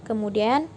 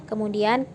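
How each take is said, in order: Both takes have the same delivery.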